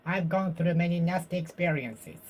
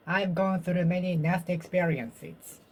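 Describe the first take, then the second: No difference in how they are said.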